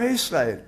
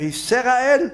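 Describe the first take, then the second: First: ישראל as YIS-RA-EL, falling at the end; correct silent sheva. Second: ישראל as YI-SE-RA-EL, high and rising in question; wrongly voiced sheva. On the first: Rabbi giving students the right reading, falling YIS-RA-EL. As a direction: close the S in ישראל with no vowel after it. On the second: Rabbi challenging students with a wrong reading, high YI-SE-RA-EL. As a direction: add an E after the S in ישראל, higher pitched. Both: Shown as a demonstration. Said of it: "אתה אומר".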